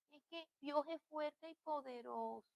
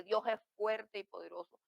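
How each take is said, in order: First: Tiny, high, very soft frightened-chick voice; scared little chick. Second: Said in the usual way. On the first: Shown as a demonstration. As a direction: squeak it out feebly like a frightened chick. (voz de pollito asustado) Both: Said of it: "Una voz de pollito asustado".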